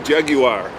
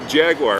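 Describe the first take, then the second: First: Jaguar is said with a British accent. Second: Jaguar is said with an American accent.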